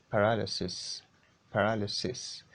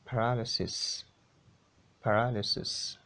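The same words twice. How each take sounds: The two takes are said the same way.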